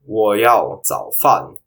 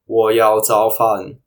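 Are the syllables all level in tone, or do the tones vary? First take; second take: varied; all level. First: The syllables carry their own differing tones. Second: Every syllable is said on a level high tone. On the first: "I want breakfast" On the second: "pronounced in first tone"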